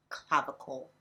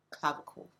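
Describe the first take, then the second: First: Said in the usual way. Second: "clavicle" whispered, no voice. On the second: Shown as a demonstration. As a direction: breathe "clavicle" as a secret.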